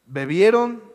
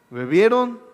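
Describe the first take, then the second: First: Said in the usual way. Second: "bebieron" said with a chuckle and a wink; knowing laugh. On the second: Shown as a demonstration. Preacher jokes to the church, laughing on "bebieron". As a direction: laugh through "bebieron" as if hinting at wine.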